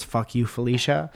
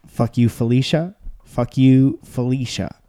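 First: Said in the usual way. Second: Rising, shouted delivery; loud punchline. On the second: Shown as a demonstration. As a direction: belt out the insult. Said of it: "None of that did what I wanted it to do".

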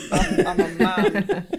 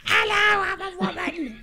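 First: Hammed-up bloke voice, slow and laughing; lightly voiced generic man. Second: Much higher mock lady voice; man doing a woman's voice. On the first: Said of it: "a generic man voice". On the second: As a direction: squeak it out like a cartoon woman. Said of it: "my real voice or my lady voice".

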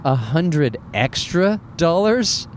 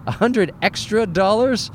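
First: Slow, drawn-out disbelieving repeat; slow disbelief. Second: Higher, rising mock-incredulous question; incredulous repeat. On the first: Retold or imitated. Comic retelling to the audience, slow stunned disbelief. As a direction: stretch it out like you can't believe the price. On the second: Comic retelling of the baggage fee, high rising disbelief. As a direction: throw it up high like you're scandalized. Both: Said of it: "I'm like".

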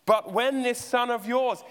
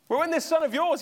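First: Slow, "yours" weighted and falling; stress on yours. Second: "son" hit much higher and louder, rising; stress on son. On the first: Elder son disowning brother to father, stress on "yours". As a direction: lean on "yours" to push the brother away. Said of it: "he doesn't even call him a brother". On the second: Elder son refusing to say brother, stress on "son". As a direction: spit out "son" with contempt. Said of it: "he's not a brother of mine". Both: Retold or imitated.

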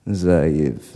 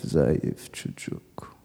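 First: Low father voice, falling; father's voice. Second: Slow, low whispered echo. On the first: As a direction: lower voice for the father. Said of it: "He's talking on the telephone". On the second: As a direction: whisper it like a stinging memory. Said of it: "I can still feel the sting". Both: Retold or imitated.

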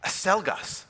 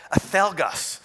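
First: "Acelgas" with the c as a plain s; Panamanian pronunciation. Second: "acelgas" with the c lisped as th; Castilian pronunciation. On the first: Panamanian friend insists on his order to the waiter, c said as s. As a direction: say "Acelgas" the Latin American way, ah-SEL-gas. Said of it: "my friend insisted". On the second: Spanish waiter corrects the foreigner's pronunciation, c said as th. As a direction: say "acelgas" Spain style, ah-THEL-gas. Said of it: "learn to pronounce it correctly". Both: Retold or imitated.

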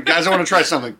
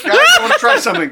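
First: Said in the usual way. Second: Said through a high laugh. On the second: Real, not acted. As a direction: laugh the words out. Laughing while announcing an idea.

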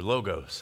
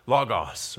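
First: "logos" said as LOH-gohss; both syllables of "logos" rounded like "go"; long-o pronunciation. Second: "logos" said as LAH-gawss; first syllable of "logos" rhymes with "law"; short-o pronunciation. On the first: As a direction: say "logos" with two long o sounds. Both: Shown as a demonstration. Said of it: "however you want to say it".

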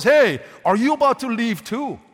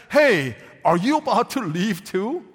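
First: Louder, pleading question to the departing twelve; desperate plea. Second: Plain reading of the question; Jesus asking. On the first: Preacher voicing Jesus as desperate, pleading loudly. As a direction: call out after them as if desperate. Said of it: "We read it as if he's desperate". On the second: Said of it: "What tone of voice could we detect from Jesus?". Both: Shown as a demonstration.

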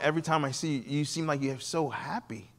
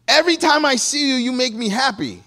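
First: Said in the usual way. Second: Much higher and louder, arms-up delight; gushing joy. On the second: Retold or imitated. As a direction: burst out with overjoyed praise. Husband, hands up, gushing.

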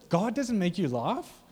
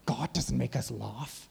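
First: Slow, higher, rising disbelief; drawn-out mock astonishment, pitch climbing high; incredulous question. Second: Slow, mock-disapproving churchgoer; drawn-out, po-faced mock objection; uncomfortable objector. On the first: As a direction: throw it back as an astonished question. Throws the objection back in disbelief. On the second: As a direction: mimic a stuffy, uneasy believer. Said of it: "freaking out 'cause they're so uncomfortable".

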